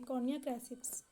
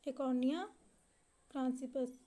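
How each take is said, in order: First: The second word has no n sound. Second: The second word has an n sound. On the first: The speaker calls it right. "इसका सही उच्चारण है" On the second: The speaker calls it wrong. "इसमें शायद मिसप्रिंट है"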